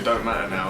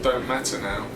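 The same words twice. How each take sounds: First: The words run together in a casual, slurred way. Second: Each word is pronounced clearly and carefully. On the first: "Normally I'd say" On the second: "I really pronounce it as best I can when I'm on camera"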